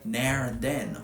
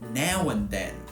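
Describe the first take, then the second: First: An R sound links 'now' to 'and'. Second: No R sound links 'now' to 'and'. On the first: This is how some southeast English speakers say it. "will actually use intrusive R after the mouth vowel, so they say" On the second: This is how the speaker says it. "whereas I say"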